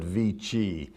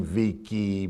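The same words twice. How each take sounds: First: Vici said slowly as VEE-chee; Italianate c. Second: Vici said as VEE-kee; hard c. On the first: Lecturer giving the corrected Latin, Vici as VEE-chee. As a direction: say "Vici" with a ch sound. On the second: Lecturer showing his mistaken Latin, Vici as VEE-kee. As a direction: say "Vici" with a k sound. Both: Shown as a demonstration. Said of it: "not supposed to be saying".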